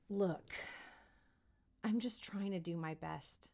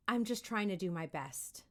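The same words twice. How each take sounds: First: Quieter, sincere, with a lead-in look; softer, earnest plea. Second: Said in the usual way. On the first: Shown as a demonstration. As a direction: plead gently. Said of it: "say the word look".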